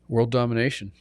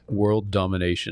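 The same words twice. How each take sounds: First: It is said in a normal speaking voice. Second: It is said in a deep, booming voice.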